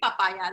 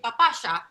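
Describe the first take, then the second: First: The y is said as a plain y sound. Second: The y is said as a sh sound.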